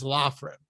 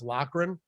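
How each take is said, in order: First: The middle consonant is an f sound. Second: The middle consonant is a k-like sound. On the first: The speaker calls it wrong. "everyone mispronouncing my name as" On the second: The speaker calls it right. "my last name is pronounced"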